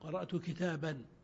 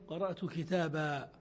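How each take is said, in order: First: The last word ends with an n sound. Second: The last word ends with a long a. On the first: The phrase continues into following speech. "في الوصل تقرأه بالنون" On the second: The speaker pauses after the phrase. "وفي الوقف قرأت كتابا بالألف"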